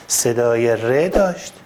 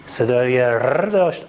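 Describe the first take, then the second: No difference in how they are said.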